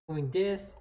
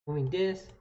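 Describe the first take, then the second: No difference in how they are said.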